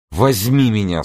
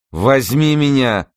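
First: Raised-pitch, brief insistent request; insistent demand. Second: High, loud, drawn-out demand; slow it down and insist loudly; emphatic repeated demand. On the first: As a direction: ask firmly without drawing it out. Character makes a first demand. (настойчивая просьба повышенным голосом) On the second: Character repeats the demand more forcefully. (громкое, протяжное, настойчивое требование) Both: A narrator's reading.

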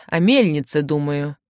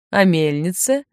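First: Said in the usual way. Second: «О мельнице» lifted in a rising question; questioning echo. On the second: A narrator's reading. Eduard echoes Andryusha, «О мельнице» rising as a question. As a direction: echo «О мельнице» back with a rise at the end.

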